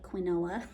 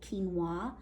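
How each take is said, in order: First: The word is pronounced just as it's spelled. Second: The word is not pronounced the way it's spelled. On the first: The speaker calls it wrong. "It looks like quinoa, but that's not how you say it" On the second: The speaker calls it right. "it's called quinoa"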